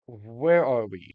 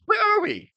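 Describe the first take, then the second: First: Slow, drawn-out where are we, in a dramatic voice; slow dramatic question. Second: Where are we? squeaked much higher and louder; high squeaky question. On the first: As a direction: draw out where are we slowly for suspense. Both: Shown as a demonstration. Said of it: "First of all".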